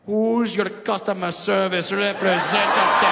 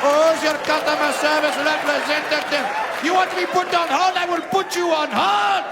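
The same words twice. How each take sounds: First: Put-on slow, louder Indian accent. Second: Put-on much higher, loud yelling Indian accent; Indian accent shouting. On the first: Indian man whispering in ear in slow Indian accent. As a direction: purr it slowly in an Indian accent. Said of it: "whisper something soft and sexy in your ear". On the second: Indian man shouting at woman in high Indian accent.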